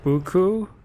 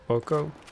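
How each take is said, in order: First: The first syllable has an 'oo' vowel. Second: The first syllable has an 'oh' vowel. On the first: "Is it like a boo?" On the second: "It's not bo?"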